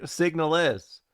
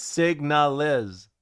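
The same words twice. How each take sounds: First: Said in the usual way. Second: Signalis slowly, split as SIG-NAH-LIS; careful pronunciation. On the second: Shown as a demonstration. Streamer showing viewers the name, slow syllable-by-syllable "signalis". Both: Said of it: "I'm saying that".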